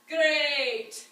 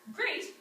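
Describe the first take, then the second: First: Scottish accent with a heavily emphasized A sound. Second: Said in a plain American accent. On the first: "in Scotland, ... with much more emphasis on the A sound" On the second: "how would we say that usually"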